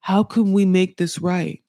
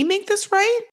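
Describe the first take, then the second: First: Put-on understated quote of a pleading boyfriend; imitating pleading boyfriend. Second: High, incredulous mimicry with rising end; mocking echo. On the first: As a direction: retell his plea in a near-usual voice. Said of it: "And then he's like". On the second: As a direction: throw the question back in a raised mocking pitch. Throws his question back scornfully.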